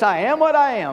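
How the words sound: It is said in a proud, boastful way. The speaker is bragging about his own importance. The speaker calls it wrong. "I'm the big dog"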